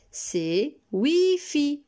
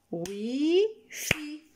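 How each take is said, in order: First: Slow, clear model of the word Wi-Fi. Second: "Wi-Fi" split into two beats, pitched higher and falling; syllable-clapped word. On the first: Teacher modelling "Wi-Fi" slowly for children. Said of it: "j'ai besoin de vos oreilles". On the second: Teacher clapping out "Wi-Fi" syllables for children. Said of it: "Essayez d'écouter le mot et tapez des mains". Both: Shown as a demonstration.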